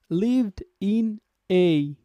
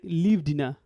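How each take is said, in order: First: The words are said separately, not linked. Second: The words are linked into one smooth unit. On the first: The speaker calls it wrong. "not we are gonna say" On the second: The speaker calls it right. "we will link everything together"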